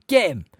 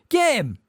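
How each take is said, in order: First: Loud, high shrieking command; screamed order. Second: Even higher, loud shriek; screamed order. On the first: Umbridge ordering the wizards after Hagrid, screamed. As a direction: scream at your helpers to attack. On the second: Umbridge ordering the wizards after Hagrid, frantic higher scream. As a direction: scream it again, more frantic. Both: A narrator's reading. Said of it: "screamed Umbridge".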